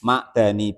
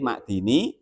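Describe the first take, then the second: First: The vowel after the d is 'a'. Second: The vowel after the d is 'i'. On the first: "bifat hidali dengan bifatkah e, dalnya" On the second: "dan juga boleh dibaca kasroh dalnya"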